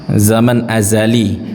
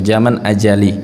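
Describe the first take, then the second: First: The word azali is said with a z sound. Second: The word azali is said with a j sound. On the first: The speaker calls it right. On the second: The speaker calls it wrong.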